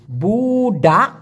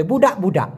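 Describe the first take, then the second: First: বুডা with a long buu, then daa; syllable-by-syllable pronunciation. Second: Said in the usual way. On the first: Shown as a demonstration. Teacher dictates বুডা for writing, drawn-out syllables. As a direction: stretch বুডা for learners to write down. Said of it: "লিখুন please". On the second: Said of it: "দুইবার উচ্চারণ হবে".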